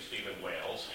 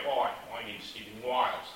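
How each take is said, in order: First: Said in the usual way. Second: Imitated Australian accent, "Wales" turned into "Wiles". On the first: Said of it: "the A sounds like an I". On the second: Australian friend introducing himself by name, imitated Australian accent. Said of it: "I know about Australian accents".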